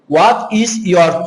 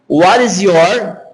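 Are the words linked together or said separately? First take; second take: separately; linked. First: Each word is said separately, as written. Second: The words run together, with linked sounds. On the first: "Veja que eu estou lendo conforme está escrito" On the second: "Eles unem, unem. Veja que fica assim, ó"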